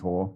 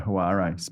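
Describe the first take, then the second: First: The A is silent, giving one syllable. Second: The A is sounded, giving two syllables. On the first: The speaker calls it right. "but it is Hor" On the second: The speaker calls it wrong. "they'll pronounce the A"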